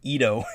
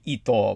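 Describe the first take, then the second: First: The name is said with English-style pronunciation. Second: The name is said with Japanese-style pronunciation. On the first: This is how the public commonly said the name. The speaker calls it wrong. "everybody just called him Ito" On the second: This is how the judge's family says the name. The speaker calls it right. "his correct pronunciation of his name would be Ito"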